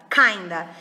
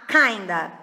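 The two takes are said the same way.

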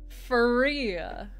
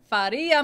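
First: The name is said with an American accent. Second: The name is said with an Italian accent. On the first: The speaker calls it wrong. "Let me just Americanize your name to a pulp" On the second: The speaker calls it right. "you must use an Italian accent and do the Faria"

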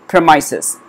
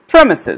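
First: The stress is on a later syllable. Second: The stress is on the first syllable. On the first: The speaker calls it wrong. "So it will never be premises" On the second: The speaker calls it right. "this has got the stress in the beginning of the word"

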